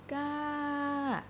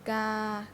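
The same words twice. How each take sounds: First: The pitch goes up and then falls. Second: The pitch stays level in the middle. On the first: "Up the mountain, down the mountain" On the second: "Let's try the three, the first three"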